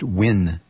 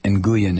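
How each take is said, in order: First: The surname is one short syllable, like win. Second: The surname is sounded out letter by letter. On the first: The speaker calls it right. "it's pronounced Win" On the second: The speaker calls it wrong. "I went for the literal spelling of his last name, literal pronunciation"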